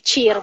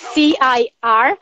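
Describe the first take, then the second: First: The letters are named with Italian letter names. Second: The letters are named with English letter names. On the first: "in Italian we say C I R" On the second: "but it's C I R"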